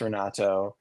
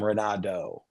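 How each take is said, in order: First: The name is said with its native pronunciation. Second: The name is said with an American pronunciation. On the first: This is how people who know him say it. The speaker calls it right. "my name is Renato" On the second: This is how most people there say it. The speaker calls it wrong. "Almost every American pronounces my name Renato"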